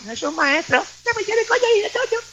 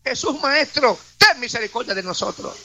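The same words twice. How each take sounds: First: Very high, small put-on voice; meek mock plea. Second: Mild, acted cry for mercy. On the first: Preacher mimicking lepers who would not shout, meek high voice. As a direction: squeak it out high without shouting. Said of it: "no dice que dijeron". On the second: Humbled lepers pleading with Jesus, mildly crying out. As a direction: call it out firmly, falling at the end. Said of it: "por eso gritaban".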